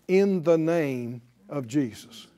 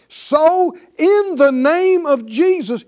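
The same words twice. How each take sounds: First: Said in the usual way. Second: Slow, high, loud proclamation; forceful invocation. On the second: Shown as a demonstration. Believer invoking the name against evil, forceful proclamation. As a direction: declare it with full authority, drawing it out.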